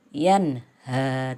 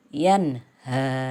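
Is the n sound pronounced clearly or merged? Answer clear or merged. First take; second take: clear; clear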